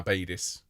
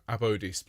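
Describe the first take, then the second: First: "Abadis" said with an ay sound, a-BAY-dis; the rejected take "Abadis", a-BAY-dis; Abadis as the wrong form. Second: "Abhodis" with an o sound, ab-HO-dis; Abhodis preferred. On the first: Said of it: "so, Abhodis, please". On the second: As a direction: say "Abhodis" with the long o. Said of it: "rather than Abadis". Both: Shown as a demonstration.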